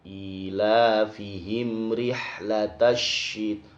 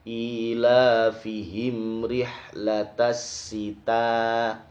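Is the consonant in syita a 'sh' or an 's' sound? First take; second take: sh; s. First: The word syita starts with a 'sh' sound. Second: The word syita starts with an 's' sound. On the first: The speaker calls it right. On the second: The speaker calls it wrong.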